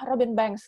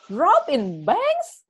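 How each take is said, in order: First: Said in the usual way. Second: Slow, incredulous rising repeat; surprised question. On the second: Retold or imitated. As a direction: drag it out in disbelief. Retold stranger repeating name.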